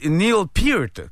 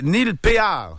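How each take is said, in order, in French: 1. Le nom a la voyelle de ear. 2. Le nom se prononce à la française, pay-ar. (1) "comme une oreille, précédé d'un P, suivi d'un T" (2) "ça ferait en français, c'est écrit Péard"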